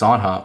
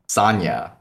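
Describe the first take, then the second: First: The name is said with a plain English pronunciation. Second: The name is said with a Brazilian Portuguese pronunciation.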